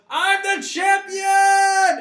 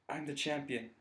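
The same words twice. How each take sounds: First: It is shouted loudly. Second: It is said quietly, to himself.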